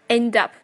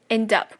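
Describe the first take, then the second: No difference in how they are said.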